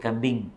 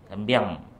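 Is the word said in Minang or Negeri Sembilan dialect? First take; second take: Negeri Sembilan; Minang. First: It is said in Negeri Sembilan dialect. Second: It is said in Minang dialect.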